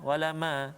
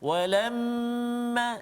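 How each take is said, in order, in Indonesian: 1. Bunyi m dibaca cepat tanpa dengung yang ditahan. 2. Bunyi m didengungkan dan ditahan dua ketukan.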